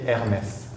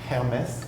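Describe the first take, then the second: First: The word starts with a vowel, H silent. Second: The word starts with an audible h sound. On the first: The speaker calls it right. "In French, we say Hermès" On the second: The speaker calls it wrong. "like with an H"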